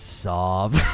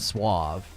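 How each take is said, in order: First: The name sounds like a short 'sov'. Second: The name sounds like the word suave. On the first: The speaker calls it right. "No. It's Sov" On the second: The speaker calls it wrong. "mispronounce your last name Suave"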